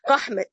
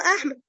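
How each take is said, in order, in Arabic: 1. الكلمة تبدأ بصوت q. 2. الكلمة تبدأ بهمزة. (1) "فحول الالف الى قاف" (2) "طب هو احمد"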